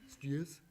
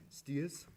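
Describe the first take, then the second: The two takes are said the same way.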